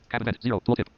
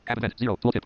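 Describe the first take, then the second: No difference in how they are said.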